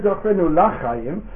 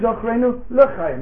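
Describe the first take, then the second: First: The prefix is a full 'la' sound. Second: The prefix is a reduced, weaker vowel. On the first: It means for the life, with the definite article. "And that's what it should be. But no one says" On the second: It means for life, without the definite article. "We all say"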